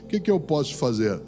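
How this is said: It sounds discouraged and weak.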